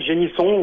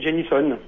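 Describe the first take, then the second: First: The name is pronounced the French way. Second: The name is pronounced the American way. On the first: "vous pouvez le faire à la française" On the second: "ou à l'américaine"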